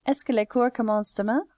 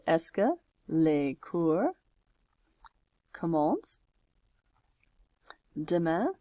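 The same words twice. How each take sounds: First: Quick, higher French question, rising at the end; brisk question without breaks; fluent read-back. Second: Slow French question with long pauses between words; spaced out as if typing along; word-by-word dictation. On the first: Reads back the finished question. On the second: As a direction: dictate it slowly, piece by piece. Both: Shown as a demonstration.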